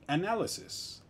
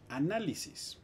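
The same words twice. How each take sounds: First: Análisis con acento español, todas las sílabas claras. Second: Análisis con final en es, como analyses; análisis en inglés. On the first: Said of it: "me tengo que hacer análisis". (análisis pronunciado a la española) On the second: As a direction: di análisis a la inglesa, terminando en sis abierta. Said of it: "en inglés se siguen las reglas". (análisis pronunciado a la inglesa) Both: Shown as a demonstration.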